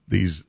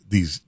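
Both takes have the same delivery.

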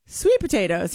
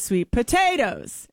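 First: Sweet potatoes led by "sweet"; girlfriend's stress pattern. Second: Sweet potatoes leaning hard on "potatoes"; boyfriend's wrong emphasis. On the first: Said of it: "emphasis on the wrong syllable". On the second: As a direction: stress on the middle of "potatoes". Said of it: "He says sweet potatoes". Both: Retold or imitated.

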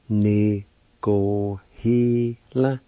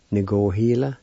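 First: Very slow "Ni go he la", each syllable held. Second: Said in the usual way. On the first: Shown as a demonstration. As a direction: teach "Ni go he la" one syllable at a time. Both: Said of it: "It's pronounced like this".

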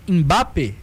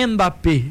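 First: "Mbappé" with a near-silent M; correct pronunciation. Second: "Mbappé" with a full "en" syllable up front; wrong pronunciation. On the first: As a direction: slide from a short nasal hum into "bappé". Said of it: "o M é mudo nesse sentido". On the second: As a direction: sound out a vowel before the M of "Mbappé". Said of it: "Não é Mbappé". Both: Shown as a demonstration.

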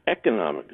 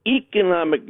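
First: "economic" with a short eh at the start; short first E. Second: "economic" with a long ee at the start; long first E. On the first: Caller giving the pronunciation they expected, short E in "economic". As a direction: say "economic" as EK-onomic. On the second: Caller questioning a newsreader's pronunciation, long E in "economic". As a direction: say "economic" as EE-konomic. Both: Shown as a demonstration. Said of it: "I always thought it was a shorty".

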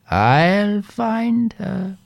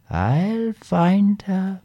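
First: Slow and high, firmer; slow insistent repeat. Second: Slow and rising, drawn out; slow drawn-out promise. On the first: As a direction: draw it out, insisting. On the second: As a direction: stretch each word, reassuring. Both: A narrator's reading. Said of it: "she said".

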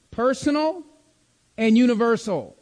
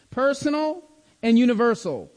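The two takes are said the same way.

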